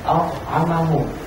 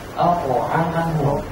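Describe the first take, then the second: First: The consonant is said without an echoing bounce. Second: The consonant is said with an echoing bounce. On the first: The speaker calls it wrong. "nggak boleh" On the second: The speaker calls it right. "harus ada patulan"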